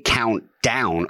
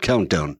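First: The stress falls on the word down. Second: The stress falls on the word count. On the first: It hides the countdown pun. "Like you would emphasize the last name a little bit" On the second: It sounds like the word countdown. "Ringo even pronounces it like a countdown"

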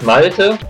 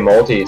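First: The name is said with a German pronunciation. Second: The name is said with an American pronunciation.

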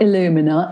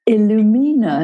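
First: The name is pronounced like English illuminate. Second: The name is pronounced the Spanish way. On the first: It follows how English readers read it. The speaker calls it wrong. "not Illumina" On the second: It follows the way the song was heard. The speaker calls it right. "we like to say the Spanish way"

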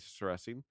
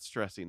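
First: The name has no t sound after the s. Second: The name has a t sound after the s. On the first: The speaker calls it right. "because there's no T in there" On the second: The speaker calls it wrong. "it's not stressing"

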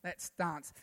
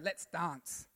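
First: Dance is said with a broad, posh British vowel. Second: The same.

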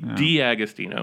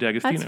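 First: The D is spoken as its letter name. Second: The D joins straight onto the rest. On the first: The speaker calls it right. "The apostrophe means say the letter, so it should be D'Agostino" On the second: The speaker calls it wrong. "Instead of"

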